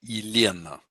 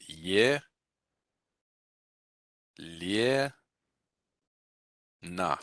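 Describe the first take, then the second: First: Elena with a first-syllable "e", stress on "le"; reduced pronunciation. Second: Ye, lie, na said slowly as separate syllables; letter by letter. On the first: Teacher showing students the real pronunciation of Elena. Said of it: "it's actually something like this". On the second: Teacher showing the naive letter-by-letter reading of Elena. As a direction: spell out ye, lie, na, each syllable full. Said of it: "if you just do it letter by letter". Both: Shown as a demonstration.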